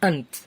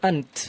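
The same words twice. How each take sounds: First: The word ends on a bare consonant sound. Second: The word ends on a bare consonant sound.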